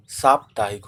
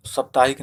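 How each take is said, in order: First: "साप्ताहिक" begun with a long, punched "saap"; correct long vowel. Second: "साप्ताहिक" begun with a short "sap"; wrong short vowel. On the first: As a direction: lean on a long साप् in "साप्ताहिक". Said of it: "साप्ताहिक होता है". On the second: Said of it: "साप्ताहिक ना होके". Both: Shown as a demonstration.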